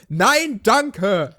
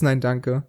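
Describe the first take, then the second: First: The phrase is said loudly and clearly. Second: The phrase is said quietly, barely voiced. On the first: The refusal is clearly and politely given. The speaker calls it right. "Eigentlich wäre es nett, wenn man einfach laut Nein, danke sagt" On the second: The refusal is barely noticeable, almost ignoring the person. The speaker calls it wrong. "manchmal so ein leises Nein, danke"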